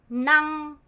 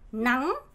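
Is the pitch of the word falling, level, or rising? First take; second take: level; rising. First: The pitch stays flat and level throughout. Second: The pitch goes up sharply. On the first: "그냥 성조 없이 보면 낭, 낭 이렇게 일성이 돼야 돼요" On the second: "강한 아를 하면서 성조 올리면 돼요"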